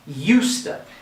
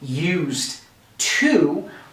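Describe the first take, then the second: First: The two words are blended into one. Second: The two words are said separately and fully. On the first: "we're going to say used to" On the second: "Instead of saying used to"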